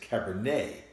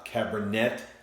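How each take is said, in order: First: The final t is silent. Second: The final t is pronounced. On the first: The speaker calls it right. "but it's Cabernet. Why are we pronouncing E T?" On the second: The speaker calls it wrong. "pronounce that as if you're reading it in English"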